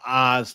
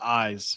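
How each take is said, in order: First: The vowel has a drawn-out Southern sound. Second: The vowel has a clipped Northern sound. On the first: "like mine used to be whenever I moved from Mingo County" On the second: "when I moved over in Ohio"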